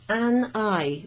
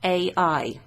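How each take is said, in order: First: AN EYE with the N linked into the vowel; English liaison. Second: A EYE with A said as its letter name, a break before EYE; louder, separated A EYE without any N; missing liaison. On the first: Teacher comparing English to French liaison, linked N. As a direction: run AN smoothly into EYE. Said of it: "to make it easier to pronounce". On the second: Teacher showing what doesn't sound right, disjointed. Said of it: "Doesn't sound right". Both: Shown as a demonstration.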